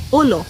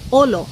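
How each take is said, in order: First: The first vowel is an oh sound. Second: The first vowel is an oh sound.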